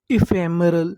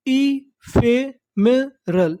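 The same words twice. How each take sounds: First: Said in the usual way. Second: "ephemeral" very slowly, each syllable set apart; broken into syllables. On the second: Shown as a demonstration. Teacher assembling the word for learners, syllable by syllable. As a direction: sound out "ephemeral" one beat at a time. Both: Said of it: "टुकड़ों में तोड़-तोड़ के पढ़ना है".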